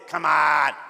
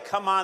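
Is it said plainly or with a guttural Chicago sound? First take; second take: guttural; plainly. First: It is said gutturally, in a Chicago way. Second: It is said plainly, without the Chicago sound.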